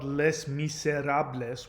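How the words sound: Each letter is sounded out as it is spelled. This is the original pronunciation. "which is how it would have been pronounced"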